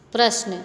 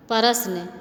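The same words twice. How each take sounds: First: "प्रश्न" said as one tight cluster, prashn; correct pronunciation. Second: "प्रश्न" split with extra vowels, like pa-ra-sh-na; wrong pronunciation. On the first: Teacher shows the class the correct, clipped "प्रश्न". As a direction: close the cluster in "प्रश्न" with no added vowels. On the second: Teacher shows the class the wrong, split-up "प्रश्न". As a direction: say "प्रश्न" broken into syllables with added vowels. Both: Shown as a demonstration. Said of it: "देखो कैसे है अशुद्ध शब्द और शुद्ध शब्द".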